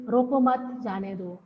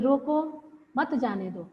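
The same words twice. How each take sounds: First: "रोको मत" as one unit, then "जाने दो"; pause after मत. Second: "रोको", short break, then "मत जाने दो"; pause after रोको. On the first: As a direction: join रोको to मत, break before जाने दो. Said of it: "अर्ध विराम लगा दिया". ("रोको मत" के बाद विराम) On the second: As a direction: split रोको off, run मत into जाने दो. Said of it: "रोको के बाद हमने एक अर्ध विराम लगा दिया". ("रोको" के बाद अर्ध विराम) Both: Shown as a demonstration.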